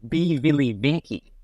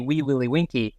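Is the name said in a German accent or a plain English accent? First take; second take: German; plain English. First: It is said in a German accent. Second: It is said in a plain English accent. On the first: This is how a parent with that accent said it. "Anything in a German accent" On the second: This is the usual way the name is said. "she didn't say Wee Willie Winky"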